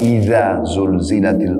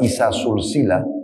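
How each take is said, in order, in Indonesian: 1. Konsonannya adalah bunyi z bersuara. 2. Konsonannya adalah bunyi s tak bersuara. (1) "Cara membaca" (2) "Kalau Anda baca isa sulsila, ... berubah makna"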